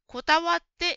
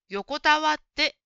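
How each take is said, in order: First: The first syllable is weak and barely heard. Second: The first syllable is clear and full. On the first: The speaker calls it wrong. "用が小さくて、こたわってに聞こえました。" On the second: The speaker calls it right. "用もしっかり言いましょう。"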